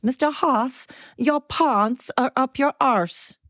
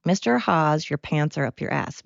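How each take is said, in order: First: High, exaggerated South African imitation; bad South African accent. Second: Said in the usual way. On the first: Speaker contrasting the student's line with her own, mock South African accent. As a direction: pitch it high and slow in a badly faked South African accent. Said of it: "your accent justice". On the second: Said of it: "it's supposed to be".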